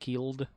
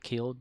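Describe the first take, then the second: First: The word is said with an extra drawn-out flourish. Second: The word is said plainly, without extra emphasis. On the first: The speaker calls it right. "I always put an extra little little in it whenever I say that" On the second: The speaker calls it wrong. "Not killed"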